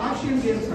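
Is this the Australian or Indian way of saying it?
Australian. It is said in an imitated Australian accent. "వాళ్ళు ఆసియన్ గేమ్స్ అంటారు"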